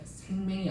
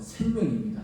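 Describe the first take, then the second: First: The second syllable sounds like 'maeng'. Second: The second syllable sounds like 'myeong'. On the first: It sounds like a different word. The speaker calls it wrong. "생맹?" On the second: It means life. The speaker calls it right. "저는 분명히 생명이라고 했는데"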